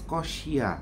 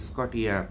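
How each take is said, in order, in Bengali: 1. মাঝের ব্যঞ্জনটি 'sh' ধ্বনি। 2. মাঝের ব্যঞ্জনটি 't' ধ্বনি। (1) "বেসিক্যালি এটার নামটার উচ্চারণ হচ্ছে স্কশিয়া" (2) "আপনারা বলেন এটা স্কটিয়া কোম্পানির মাল"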